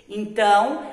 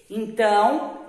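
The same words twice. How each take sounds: Both takes have the same delivery.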